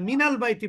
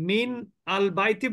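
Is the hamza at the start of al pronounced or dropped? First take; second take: dropped; pronounced. First: The hamza is dropped and the words join. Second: The hamza is pronounced as a separate word start. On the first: "মিনাল বাইতি বলবেন" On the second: "মিন আল বাইতি বলবেন না"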